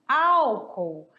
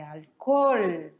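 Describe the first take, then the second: First: Álcool in Portuguese, stress on the first syllable, AL-cool. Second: Alcohol in Spanish, stress on the last syllable, al-co-HOL. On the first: Teacher giving the Portuguese form first, álcool stressed on AL. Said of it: "em português nós falamos". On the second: Teacher contrasting with Spanish, alcohol stressed on HOL. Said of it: "em espanhol é". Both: Shown as a demonstration.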